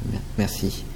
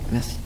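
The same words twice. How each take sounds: First: Fading, breathy whisper of thanks. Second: Said in the usual way. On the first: Acted. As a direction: trail off into a whisper. Thanks fading as guide leaves.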